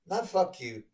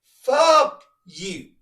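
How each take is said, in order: First: Said in the usual way. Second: Fuck hit high and loud on the F; stress on the F. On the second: Shown as a demonstration. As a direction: lean hard into the F of Fuck, shouted. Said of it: "put emphasis on that F".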